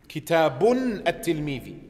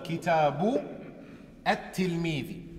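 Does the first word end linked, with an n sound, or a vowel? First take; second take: n sound; vowel. First: The first word ends with an added n sound. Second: The first word ends on a plain vowel, separate. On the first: The speaker calls it wrong. "Ich sage nicht Kitabun at-Tilmidi. Das ist falsch" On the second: The speaker calls it right. "Sondern Kitabu at-Tilmidi"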